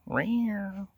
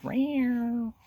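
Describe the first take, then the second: First: High cat mew, trailing off; cat meow. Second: High mewing cat voice; cat meow. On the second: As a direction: mew like a little cat. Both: Retold or imitated.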